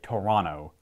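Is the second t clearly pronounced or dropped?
dropped. It has a Canadian Ontario accent, the t dropped.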